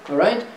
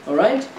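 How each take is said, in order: The two takes are said the same way.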